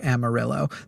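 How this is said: It is said with an English, Texan pronunciation. It is the local pronunciation that changes the Spanish word on purpose. "in Texas, we pronounce it Amarillo"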